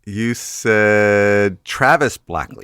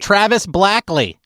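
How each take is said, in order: First: Slow name. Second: Slow confirming. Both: Shown as a demonstration.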